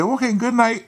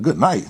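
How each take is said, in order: First: High-pitched, airy good night; imitated woman. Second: Incredulous echo. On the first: Woman to man in bed, high breezy sign-off. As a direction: put on her high, breezy voice. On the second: Retold or imitated. His inner echo of her.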